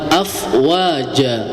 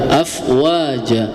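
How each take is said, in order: Both takes have the same delivery.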